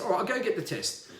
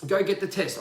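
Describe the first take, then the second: First: Said in the usual way. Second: Short, curt order; curt quoted order. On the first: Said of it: "his resigned reply". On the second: Retold or imitated. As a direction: bark it like an instruction. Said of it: "quoted demand".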